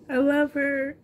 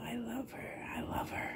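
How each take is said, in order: First: Said in the usual way. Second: Soft unvoiced whisper of affection. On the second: Real, not acted. Vlogger whispering love to her doll Molly, soft whisper. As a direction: breathe the words out tenderly without voice.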